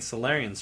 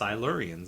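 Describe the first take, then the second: First: The first syllable sounds like 'sol'. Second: The first syllable sounds like 'sil'. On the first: The speaker calls it wrong. "we were saying Solarians for so long" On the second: The speaker calls it right. "it's it's Silurians"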